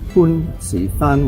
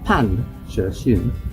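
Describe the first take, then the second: First: The name is read with Cantonese pronunciation. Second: The name is read with Mandarin pronunciation. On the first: "If you transliterate that into a Cantonese name" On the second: "I pronounce it in Mandarin"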